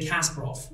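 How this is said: The name has the English-speaking pronunciation. "in English, they say Kasparov"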